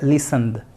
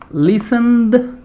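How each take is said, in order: First: The word is said naturally without marked ending. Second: The word is over-articulated with a marked ending. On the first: The speaker calls it right. "en inglés naturalmente no se pronuncia tan así, tan remarcado. Simplemente listened" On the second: The speaker calls it wrong. "yo lo pronuncio remarcado para que ustedes se, se noten, se den cuenta"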